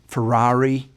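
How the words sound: It is said with an American accent. The speaker calls it wrong. "A lot of Americans may say"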